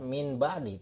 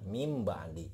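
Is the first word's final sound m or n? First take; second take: n; m. First: The first word ends with an n sound. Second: The first word ends with an m sound. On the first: The speaker calls it wrong. "tidak dibaca min ba'di, tidak" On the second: The speaker calls it right. "Ini dibacanya mim ba'di"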